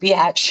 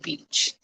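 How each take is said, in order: First: The name is said in two syllables, 'bee-atch'. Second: The name is said in one syllable, 'beach'. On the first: The speaker calls it wrong. "some people think it's pronounced Biatch. It's not" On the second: The speaker calls it right. "It's Robin Beach"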